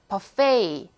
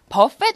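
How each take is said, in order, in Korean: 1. 이 단어는 'ay' 소리로 끝나요. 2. 이 단어는 't' 소리로 끝나요. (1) "버페이 혹은 부페이라고 발음하는 단어예요" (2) "버펫 아니고"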